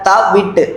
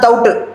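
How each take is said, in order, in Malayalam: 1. നടുവിലെ അക്ഷരം വ്യക്തമായും പൂർണ്ണമായും പറയുന്നു. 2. നടുവിലെ അക്ഷരം ഒരു സ്വരമാക്കി ചുരുക്കുന്നു. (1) "തൗട്ട് അല്ല ത വിട്ട്" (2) "ഞാൻ മലപ്പുറമാണ് തൗട്ട് തൗട്ട്"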